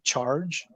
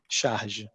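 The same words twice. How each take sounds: First: The word has a plain English pronunciation. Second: The word has a French-sounding pronunciation. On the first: "it's basically charge, like to charge a battery" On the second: "the way we pronounce it is charge, which makes it sound kind of French"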